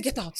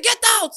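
First: Said in the usual way. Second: High, loud retold scream; screamed order. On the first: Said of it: "I said". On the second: Woman in bathroom screaming at the hiding man. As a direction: shout it at him, much higher. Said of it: "I screamed so much".

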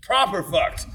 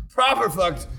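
First: A clipped British English "Proper fucked", "proper" stressed and falling; mock British accent. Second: Mock British accent, said again. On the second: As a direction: echo "Proper fucked" with British flair. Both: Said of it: "a proper King's English definition".

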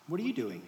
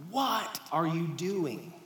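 First: "you" lifted with a falling close; stress on you. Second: "What" leaned on, slow and drawn out; stress on what. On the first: Pastor shows the congregation the second stress. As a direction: push the weight onto "you". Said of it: "two totally different things". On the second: Pastor shows the congregation how stress changes meaning. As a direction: hit "What" first and hold it. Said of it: "emphasis is everything". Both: Shown as a demonstration.

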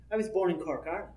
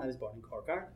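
First: Said in the usual way. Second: Low, soft, matter-of-fact reply; plain and simple answer. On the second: Shown as a demonstration. Panelist demos plainly answering where were you born, said softly. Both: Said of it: "very plain and simple".

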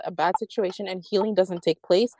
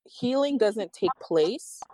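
First: Said in the usual way. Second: Slow, stressed healing with a rising end; emphasis on healing. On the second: Shown as a demonstration. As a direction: lean on the word healing and drag it out.

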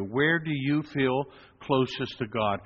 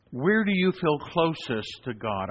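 First: Slower, more inward; repeated question for reflection; slow, reflective question. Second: Slow and searching; posed question, slowed down; slow, deliberate question. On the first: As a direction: ask it gently to the listener. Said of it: "think about that question right now for you". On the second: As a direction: ask it slowly, letting each word land. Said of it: "I always ask people the same question". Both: Shown as a demonstration.

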